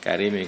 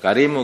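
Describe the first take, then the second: First: The word ends with an i vowel. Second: The word ends with an u vowel. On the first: The nobility describes the throne. "karimi kepada arsy-nya" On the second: The nobility describes God. "Kalau karimu kembali kepada Allah"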